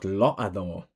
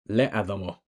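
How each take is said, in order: First: The first vowel is 'o'. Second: The first vowel is 'e'. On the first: "And this is not lo'adamo" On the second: "and not le'adamo"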